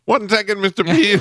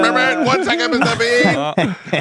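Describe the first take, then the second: First: High, eager mock reply; eager helper voice. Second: Very high, slow, drawn-out mock reply; hammed-up helper voice. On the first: The helper answering Pete's call, high and eager. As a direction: pop up eager to help. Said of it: "And he goes". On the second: The helper appearing out of nowhere, a very high hammed-up reply. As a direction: stretch it out like a cartoon helper.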